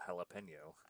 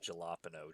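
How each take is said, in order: First: The j is pronounced as an h sound. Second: The j is pronounced as a hard j sound. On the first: The speaker calls it right. "it's a soft J in the Spanish language that makes the huh sound" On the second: The speaker calls it wrong. "I love saying it jalapeno just to piss people off"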